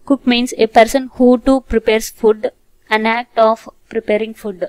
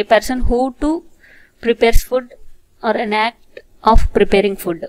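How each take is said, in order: First: Slow, deliberate reading of a definition; slow dictation. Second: Louder, slow word-by-word reading; slow loud repeat. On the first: Teacher dictating an English definition to students, slow and deliberate. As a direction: read it out word by word for the class. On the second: Teacher repeating the definition for students, slow and louder. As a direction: repeat it clearly for the class. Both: Shown as a demonstration.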